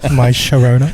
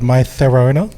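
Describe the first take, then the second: First: The consonant is a 'sh' sound. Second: The consonant is a lisped 'th' sound. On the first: This is how it is said in Argentina. "and in Argentina" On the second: This is how it is said in Spain. "In Spain"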